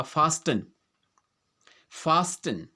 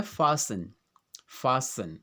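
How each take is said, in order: First: फास्टन with the t sounded; common mispronunciation. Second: फासन, silent t; correct pronunciation. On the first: Teacher showing the usual mistake, t pronounced. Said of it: "जबकि ये क्या होता है, कैसे बोला जाता है". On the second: Teacher giving the right way, t silent. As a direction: say फासन, drop the t. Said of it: "ये होता है". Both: Shown as a demonstration.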